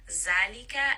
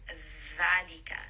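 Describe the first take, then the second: First: It begins with a buzzing z sound. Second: It begins with a soft th sound. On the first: The speaker calls it wrong. "We don't want any of that Z sound" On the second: The speaker calls it right. "you should have your tongue touching the teeth"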